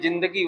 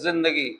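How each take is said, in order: First: The word begins with a plain j sound. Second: The word begins with a buzzing z sound. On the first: This is how local Hindi speakers say it. "हम लोग कहते हैं जिंदगी" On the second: This is how Arabic and Persian speakers say it. "वो कहते हैं जिंदगी"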